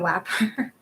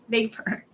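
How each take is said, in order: First: The word begins with a W sound. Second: The word begins with a V sound. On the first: The speaker calls it wrong. "he also said it wrong. Like he said it was wapper" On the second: The speaker calls it right. "It's vapor"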